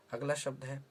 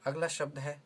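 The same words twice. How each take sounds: The two takes are said the same way.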